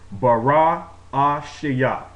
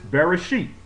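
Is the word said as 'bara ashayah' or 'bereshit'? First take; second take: bara ashayah; bereshit. First: It is said as the longer form bara ashayah. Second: It is said as the compact form bereshit. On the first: This is the speaker's own preferred way. "the way that I'm comfortable with pronouncing it" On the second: This is how others commonly say it. "they pronounce this Bereshit"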